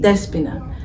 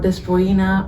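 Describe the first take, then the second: First: The name is said without an O sound. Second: The name is said with an O sound. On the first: The speaker calls it right. "It's a silent O" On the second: The speaker calls it wrong. "It's not Despoina"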